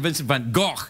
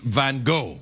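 First: The name ends in a throaty 'ch' sound. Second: The name ends in a plain 'o' sound. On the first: This is the Scottish way the speaker grew up with. "I grew up saying Vincent Van Gogh, but I'm from Scotland. And everybody says, och" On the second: This is the widely understood way, used for clarity. "for the purposes of clarity"

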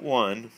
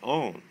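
First: It is said like the word 'won'. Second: It is said like the word 'own'. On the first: The speaker calls it wrong. "not one" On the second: The speaker calls it right. "we pronounce that own"

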